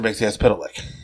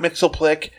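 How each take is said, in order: First: The name is said in four syllables. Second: The name is said in three syllables. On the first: The speaker calls it right. "The character's name is Mr. Mixyez Pitalik" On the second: The speaker calls it wrong. "This show calls him Mixoplek. No, not Mixoplek"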